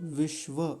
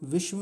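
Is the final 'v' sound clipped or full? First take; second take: full; clipped. First: The final v sound is full and clear. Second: The final v sound is clipped and weak. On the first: The speaker calls it right. "क्योंकि व पूरा है" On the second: The speaker calls it wrong. "नहीं"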